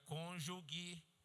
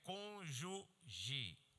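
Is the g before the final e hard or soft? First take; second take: hard; soft. First: The g near the end sounds hard. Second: The g near the end sounds soft. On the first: The speaker calls it wrong. "não diga cônjuge, porque não tem um U entre esse G e o E final" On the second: The speaker calls it right. "a palavra certa é cônjuge. G E"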